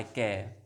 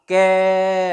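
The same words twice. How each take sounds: First: Said in the usual way. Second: कै stretched out loudly on its vowel; long drawn-out syllable. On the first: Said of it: "मुझे कै बोलना है". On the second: Shown as a demonstration. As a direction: hold the vowel of कै long and steady. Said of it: "तो कै का उच्चारण करूँगा". (ज़ोर से लंबा खींचा गया कै)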